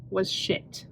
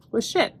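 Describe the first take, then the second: First: Soft whispered was shit; whispered disgust at the book; whispered verdict. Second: Said in the usual way. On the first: Real, not acted. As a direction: breathe it out like a secret.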